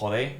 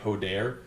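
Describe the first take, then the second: First: The word ends without its final r sound. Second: The word ends with its final r sound. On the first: "they just don't finish their consonants" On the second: "instead of saying"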